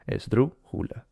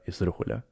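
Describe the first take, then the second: First: "Esdrújula" slowly broken up, DRÚ higher and stressed; stressed syllable demo. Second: Said in the usual way. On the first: Shown as a demonstration. Showing a friend where the accent falls, "Esdrújula" split with DRÚ stressed. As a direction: sound out "Esdrújula" with the weight on DRÚ. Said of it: "ahí tiene la fuerza de voz". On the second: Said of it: "Por ejemplo, la palabra esdrújula".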